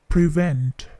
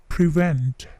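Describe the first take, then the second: Both takes have the same delivery.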